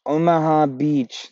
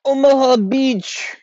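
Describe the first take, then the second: First: "Omaha Beach" slightly higher and slow, a hint of the put-on accent; lighter mock accent. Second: Omaha Beach drawn out high and slow in a put-on accent; odd mock accent. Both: Shown as a demonstration. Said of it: "I don't know what that accent was".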